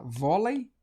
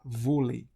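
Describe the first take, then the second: First: Vôlei said with open O, VÓ-lei, rising; wrong open-vowel vôlei, questioning rise. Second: Vôlei with a closed O, VÔ-lei, falling. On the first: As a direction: stretch an open "aw" in vôlei, end lifted. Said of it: "Se for aberto". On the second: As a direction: round the first vowel of vôlei into a tight "oh". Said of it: "Se for fechado". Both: Shown as a demonstration.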